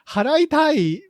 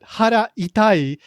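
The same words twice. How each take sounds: First: Pitch and rhythm are those of 'want to pay'. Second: Pitch and rhythm are those of 'stomach hurts'. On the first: The speaker wants to pay. "means I want to pay" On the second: The speaker's stomach hurts. "means my stomach hurts"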